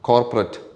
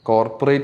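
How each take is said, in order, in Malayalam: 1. അവസാന അക്ഷരം 'ret' പോലെയാണ് തോന്നുന്നത്. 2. അവസാന അക്ഷരം 'rate' പോലെയാണ് തോന്നുന്നത്. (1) "റെറ്റ് എന്നാ പറയണ്ട" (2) "കോർപ്പറേറ്റ് അല്ല"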